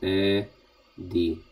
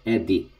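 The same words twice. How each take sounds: First: A pause separates the two syllables. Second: The syllables run together as one word. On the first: The speaker calls it wrong. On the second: The speaker calls it right. "read as as one uh, as one word"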